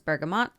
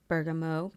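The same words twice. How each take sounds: First: The final T is clearly pronounced. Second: The final T is silent, French style. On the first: This is how someone else says it. "The T is pronounced" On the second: The word is read as if it were French. "It looks if it's French, it looks like it should be bergamot"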